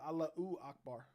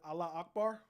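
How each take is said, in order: First: The first word ends with an added vowel. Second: The first word ends without an added vowel. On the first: The speaker calls it right. "Or is it Allahu Akbar? ... The last way you said it was correct" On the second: The speaker calls it wrong. "Is it Allah Akbar?"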